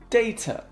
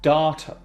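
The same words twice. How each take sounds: First: It is said in a British accent. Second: It is said in an American accent.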